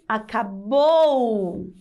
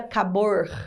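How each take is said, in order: First: The word ends with a vowel sound. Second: The word ends with a pulled R sound. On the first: The speaker calls it right. "a letra correta é acabou com a letra U" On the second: The speaker calls it wrong. "Ele não puxaria esse R no final"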